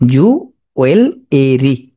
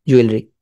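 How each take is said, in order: First: জুয়েলারি broken as "ju ... wel ... e-ree"; very slow জুয়েলারি, sounding the silent e; spelling pronunciation. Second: Said in the usual way. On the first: Shown as a demonstration. Teacher dictating how to remember it, slow chunked জুয়েলারি. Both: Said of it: "বলবা?".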